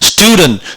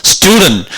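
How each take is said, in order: The two takes are said the same way.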